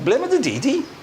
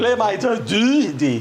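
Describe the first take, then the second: First: It is said in a South Wales accent. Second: It is said in a deeper North Wales accent. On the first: "Would sound like" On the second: "But in North Wales, it would be ... more deep"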